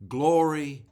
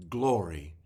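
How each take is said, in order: First: Glory cried out much higher and louder; shouted glory. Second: Glory repeated lower and less loud; softer echo of glory. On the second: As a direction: let the second glory fall back. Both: Acted. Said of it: "with each one shouting".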